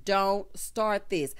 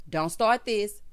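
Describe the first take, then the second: First: Slow, warning "Don't start this."; slow deliberate repeat. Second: Said in the usual way. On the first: Shown as a demonstration. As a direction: stretch "Don't start this." out slowly, each word weighted.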